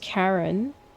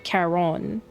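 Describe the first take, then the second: First: It sounds exactly like the name Karen. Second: It sounds different from the name Karen. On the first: This is how the name is said in Final Fantasy. "in Final Fantasy it's pronounced as Karen, as in like K A R E N" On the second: This is how the name is said in Hades. "in Hades it's pronounced as Charon"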